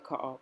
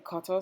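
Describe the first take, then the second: First: The middle T is dropped, not pronounced. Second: The middle T is clearly pronounced. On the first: It slips out in casual speech. "sometimes I slip and I say cutter" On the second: It is said carefully so others understand. "I try to say cutter so people can understand what I'm saying"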